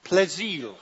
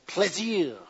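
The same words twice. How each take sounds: First: Plaisir, plé-ZEER, in French; French pronunciation. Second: Plaisir, plé-ZEE, quieter; French again. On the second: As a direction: say Plaisir in French, softer, dropping the end. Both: Shown as a demonstration. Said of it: "Say it again".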